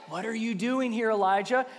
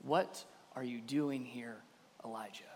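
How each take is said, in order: First: Said in the usual way. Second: Gentle whisper. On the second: A narrator's reading. God speaking to Elijah at the cave, hushed. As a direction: ask it hushed, fading on the name. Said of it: "whispered to him".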